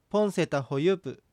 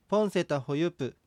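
No difference in how they are said.

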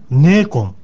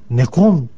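First: The first vowel is long. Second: The first vowel is short. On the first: The speaker calls it right. "次にネーコン" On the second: The speaker calls it wrong. "決してこれネコンとはしないでください"

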